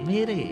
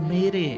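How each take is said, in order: The two takes are said the same way.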